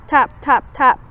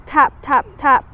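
Both takes have the same delivery.

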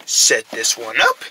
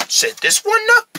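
First: Deep, slow voice; low, slow voice. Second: Squeaky high voice. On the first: Low voice, then high take. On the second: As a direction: pitch it way up. Same words, high voice. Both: Acted.

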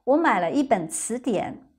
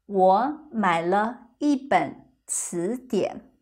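First: 我买了一本词典 at natural speed; quicker, like everyday speech; faster. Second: Slow. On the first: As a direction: pick up the pace. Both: Shown as a demonstration.

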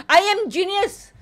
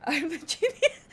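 First: "I am genius" slow and high, each word weighted; emphatic boast. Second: Soft, giggled boast; laughing. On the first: Pretend. Streamer restating the boast, "I am genius" slow and emphatic. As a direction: declare "I am genius" slowly, word by word. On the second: Real, not acted. Streamer tickled by own boast, laughing. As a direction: laugh through the claim. Laughing claim, then restated boldly.

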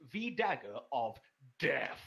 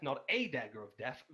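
First: "the" said as an emphatic "thee"; slow, weighty reveal with "the" as "thee"; stress on THE. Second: "a" said as a full "ay"; emphatic "ay" for "a", setting up a contrast; stress on A. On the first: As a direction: stretch it out, leaning on "the" as "thee". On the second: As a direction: lean on "a", pronounced like the letter. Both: Acted. Contrasts A with THE dagger.

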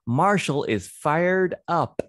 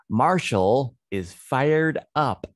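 First: Bright lifted read of fired up; excited reading. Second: Excited reading. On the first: Teacher reads the story line to kids with excitement. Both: Shown as a demonstration. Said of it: "One more time".

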